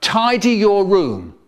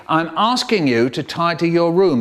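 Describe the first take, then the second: First: Louder, slow parental order; nagging parent. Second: Firmer, stress on asking; the second, sterner telling-off; nagging parent repeating. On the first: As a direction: tell them off once. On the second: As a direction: parent losing patience over the room. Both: Retold or imitated. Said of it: "They say".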